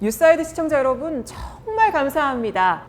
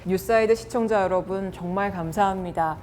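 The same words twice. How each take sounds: First: The word 정말 is stressed. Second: It is said flatly with no word stressed. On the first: It draws the listeners' attention. The speaker calls it right. "정말에다 강조를 한다면" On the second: It fails to hold the listeners' attention. The speaker calls it wrong. "밋밋하게"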